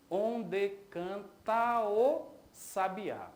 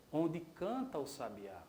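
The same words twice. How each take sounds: First: "onde canta o sabiá" very slow, each poetic syllable separated; escansão do verso. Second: Said in the usual way. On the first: Shown as a demonstration. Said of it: "Eu tenho aqui". ("onde canta o sabiá" bem devagar, sílaba por sílaba)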